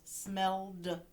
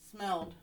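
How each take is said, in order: First: "smelled" broken as "smell-duh"; two syllables. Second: Said in the usual way. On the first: Shown as a demonstration. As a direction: sound out "smelled" with the final d as its own beat. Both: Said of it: "So two syllables".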